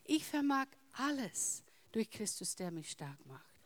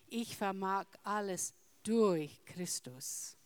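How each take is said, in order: First: The stress is on the word alles. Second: The stress is on the word Christus.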